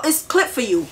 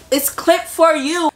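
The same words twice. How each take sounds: First: Said in the usual way. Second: "It's clip for you" drawn out slowly and raised in pitch; slow, higher-pitched warning on "It's clip for you"; emphatic repeat. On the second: Retold or imitated.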